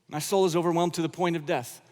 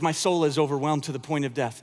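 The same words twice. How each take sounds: First: It is said in a bright, smiling tone. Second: It is said in an anguished, heavy tone.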